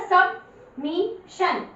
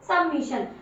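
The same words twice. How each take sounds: First: सबमिशन stretched very slowly; slow demo reading. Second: Said in the usual way. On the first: Shown as a demonstration. Teacher showing class the reading, very slow. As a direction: draw सबमिशन out for pupils. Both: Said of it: "तो क्या बन गया".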